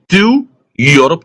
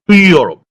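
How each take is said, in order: First: The word 'to' has a full, clear vowel. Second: The word 'to' has a light, reduced vowel. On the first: The speaker calls it wrong. "I didn't say to Europe" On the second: The speaker calls it right. "I passed lightly on the O of to. That's a weak form"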